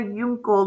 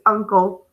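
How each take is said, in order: First: "uncle" misread with a long u, yoon-kul; wrong long-u "uncle", yunkel. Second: "uncle" with a short u as in "up"; everyday short-u "uncle". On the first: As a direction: start "uncle" with the letter name U, like "you". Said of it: "we don't say yunkel". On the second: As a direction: open "uncle" on a plain uh sound. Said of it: "it's uncle". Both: Shown as a demonstration.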